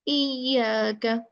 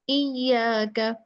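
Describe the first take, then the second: Both takes have the same delivery.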